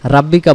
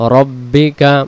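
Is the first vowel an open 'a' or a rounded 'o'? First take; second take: open a; rounded o. First: The first vowel is an open 'a' sound. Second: The first vowel is a rounded 'o' sound. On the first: The speaker calls it wrong. "রাব্বিকা বলবো না" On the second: The speaker calls it right. "উচ্চারণে কি বলবো? রব্বিকা।"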